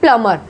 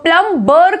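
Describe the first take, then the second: First: No b sound is heard in the middle. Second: A b sound is pronounced in the middle. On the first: The speaker calls it right. "प्लमर बोलेंगे इसको" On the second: The speaker calls it wrong. "प्लम बर करके नहीं बोलेंगे"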